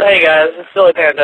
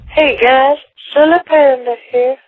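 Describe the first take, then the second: First: It is said in his normal voice. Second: It is said in a put-on voice.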